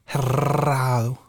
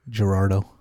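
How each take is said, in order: First: The name is said without a D sound. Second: The name is said with a D sound. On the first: The speaker calls it wrong. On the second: The speaker calls it right.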